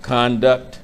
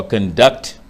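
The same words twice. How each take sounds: First: "conduct" stressed on CON, as the noun; stress on first syllable. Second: "conduct" stressed on DUCT, as the verb; stress on second syllable. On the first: Preacher explaining the word for guide, "conduct" stressed CON-duct. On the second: Preacher giving the other meaning, "conduct" stressed con-DUCT. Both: Shown as a demonstration. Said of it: "for guide can mean conduct".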